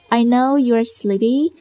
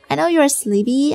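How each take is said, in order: First: It is spoken slowly and deliberately. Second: It is spoken at a normal, natural speed.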